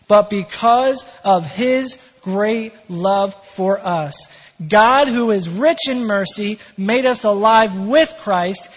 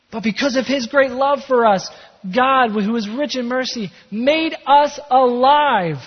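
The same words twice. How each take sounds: First: Slow, emphatic reading with weighty pauses; firm, drawn-out scripture delivery; measured scripture reading. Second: Higher, louder, fired-up preacher reading; rousing, high-energy pulpit proclamation; excited scripture reading. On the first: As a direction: read the verse out loud and deliberately, word by word. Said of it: "read that again with maybe a little bit more excitement". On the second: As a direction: proclaim the verse with real excitement, stretching the last words. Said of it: "with maybe a little bit more excitement". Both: Real, not acted.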